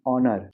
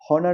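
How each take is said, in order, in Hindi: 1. इसकी शुरुआत सीधे एक स्वर की आवाज़ से होती है। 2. इसकी शुरुआत साफ़ H की आवाज़ से होती है। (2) "हॉनर नहीं"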